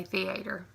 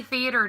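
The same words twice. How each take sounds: First: "theater" said "thee-AY-ter"; long stressed A in theater; emphasis on A. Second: "theater" said "THEE-uh-ter", stressed first; careful reading form. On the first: Vlogger in casual talk, thee-AY-ter. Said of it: "I put an emphasis on the A". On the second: Vlogger reading it off the list, THEE-uh-ter. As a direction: stress the start of theater, weak middle. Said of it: "I say theater now because I'm reading it". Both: Shown as a demonstration.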